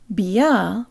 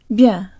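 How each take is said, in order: First: The y sound is pronounced as a separate sound. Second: The y sound is merged into the soft consonant. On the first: The speaker calls it wrong. "where the «я» is separate" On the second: The speaker calls it right. "it's as if the «y» sound gets absorbed into the «b»"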